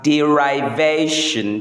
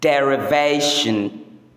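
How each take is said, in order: First: The second syllable sounds like 'rive'. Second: The second syllable does not sound like 'rive'. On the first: The speaker calls it wrong. "often mispronounced as derivation because the verb form is derive" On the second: The speaker calls it right. "the correct pronunciation is derivation"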